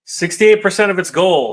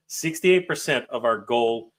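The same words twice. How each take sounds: First: Higher and louder, bursting with excitement; real excitement at the fundraising total; thrilled announcement. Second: Said in the usual way. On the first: Real, not acted. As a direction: blurt the number out in delight. Reading the funding total, thrilled.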